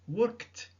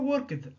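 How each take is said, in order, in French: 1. La terminaison se prononce comme un son t. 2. La terminaison ne se prononce pas comme un son t. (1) "Attention, worked" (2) "Et non pas worked"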